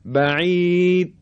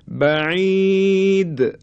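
First: The final d is cut off and barely heard. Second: The final d is released with a bouncing echo. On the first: The speaker calls it wrong. "اگه بگیم بعید، این صحیح نیست" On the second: The speaker calls it right. "این تکون خوردن رو میگیم قلقله"

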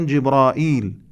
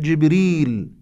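First: The name has an extra long vowel, Jibraeel. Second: The name is short, said as Jibreel. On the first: This is the everyday spoken form. The speaker calls it wrong. "في لغتنا الدارجة نقول جبرائيل" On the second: This is the form in the recited text. The speaker calls it right. "ولكن الصحيح جبريل"

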